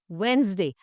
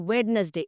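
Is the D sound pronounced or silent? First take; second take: silent; pronounced. First: The D sound is silent. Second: The D sound is pronounced. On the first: The speaker calls it right. "The D is silent" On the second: The speaker calls it wrong. "it is not Wednesday"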